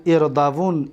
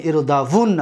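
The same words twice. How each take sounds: First: اردوون ending on a single still n; light emphatic nun. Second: اردوون with doubled n and final short a; heavy emphatic nun. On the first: Teacher reciting light-nun forms, اردوون said as irdavun. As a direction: stop اردوون on "-vun", no final a. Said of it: "با نون خفیفه". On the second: Teacher reciting heavy-nun forms, اردوون said as irdavunna. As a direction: lean on the n of اردوون, ending "-vunna". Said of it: "با نون توکید ثقیله". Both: Shown as a demonstration.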